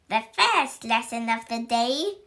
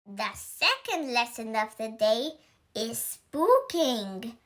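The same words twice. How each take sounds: First: Witch teacher announcing. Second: Announced. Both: Acted. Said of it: "announced Miss Bell".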